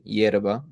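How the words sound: It starts with a 'y' sound, neutral Spanish.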